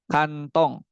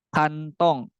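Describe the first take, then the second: No difference in how they are said.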